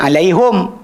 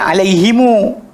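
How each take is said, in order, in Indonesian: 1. Kata ini berakhir dengan vokal u setelah h. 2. Kata ini berakhir dengan vokal u tambahan di akhir. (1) "Kalau kabilah A baca alaihum" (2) "kabilah sekian baca alaihimu"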